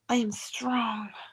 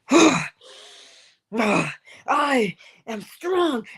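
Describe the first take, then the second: First: It is said quietly and weakly, like a whimper. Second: It is said loudly and forcefully, as a declaration. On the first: The speaker does not yet believe it. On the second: The speaker has come to believe it.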